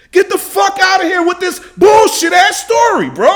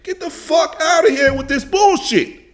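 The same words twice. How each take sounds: First: Much higher and louder, full-on yell; real furious yelling; furious shout. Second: Heated, high-pitched outburst of disbelief; high, angry dismissal. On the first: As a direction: scream it, outraged. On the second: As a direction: snap it out, fed up. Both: Real, not acted. Furious rant at the interview clip.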